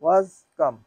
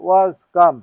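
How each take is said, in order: First: Said in the usual way. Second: Was come said very slowly and deliberately; slowly worked-out was come; slow demonstration. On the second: Shown as a demonstration. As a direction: spell out the form slowly for the student. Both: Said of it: "কাম, কেম, কাম".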